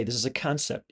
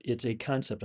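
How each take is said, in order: First: Said in the usual way. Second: "concept" given the main weight, said firmly; stress on concept. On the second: Shown as a demonstration. Reminding viewers the flying car display is only a concept, leaning on "concept". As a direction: lean on the word "concept" so it lands. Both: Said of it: "I gotta e-, emphasize that word concept".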